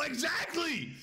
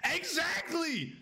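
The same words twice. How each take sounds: First: High shout of agreement; excited shout. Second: Slow, high stretched-out yell; drawn-out exclamation. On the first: Streamer yelling agreement with chat. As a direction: yell it in triumph. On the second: Streamer drawing out his agreement. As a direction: stretch every syllable. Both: Real, not acted.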